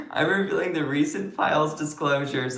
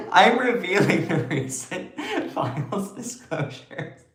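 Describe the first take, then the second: First: Said in the usual way. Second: Higher voice breaking into laughter; laughing. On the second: Real, not acted. Streamer restarting an announcement to viewers, laughing. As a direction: try to get it out through laughs. Laughing, then retakes it composed.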